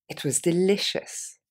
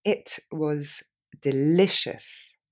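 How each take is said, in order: First: Said in the usual way. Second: Slow, drawn-out model phrase; slowly. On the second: Shown as a demonstration. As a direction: stretch delicious out very slowly. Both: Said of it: "Plus lentement".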